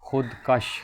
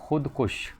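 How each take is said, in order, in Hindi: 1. दूसरे अक्षर में 'a' स्वर है। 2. दूसरे अक्षर में 'u' स्वर है। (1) "ये सरासर गलत है" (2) "ये दुरुस्त है"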